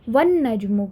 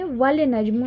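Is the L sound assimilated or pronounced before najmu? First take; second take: assimilated; pronounced. First: The L sound is assimilated into the N. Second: The L sound is pronounced before najmu. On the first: The speaker calls it right. "वन नजमु कहेंगे" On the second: The speaker calls it wrong. "वल नजमु नहीं बोलेंगे"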